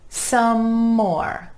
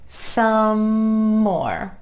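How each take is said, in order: First: The M sound flows unbroken into the next word. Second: The same.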